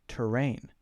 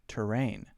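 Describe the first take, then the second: Both takes have the same delivery.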